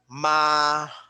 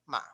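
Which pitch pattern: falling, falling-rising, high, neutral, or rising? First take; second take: high; neutral. First: The pitch stays high and level. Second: The syllable is short and unstressed. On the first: It means mother. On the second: It marks a question. "the neutral tone ma"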